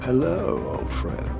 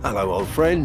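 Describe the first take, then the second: First: It is said at a slower pace. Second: It is said at a faster pace.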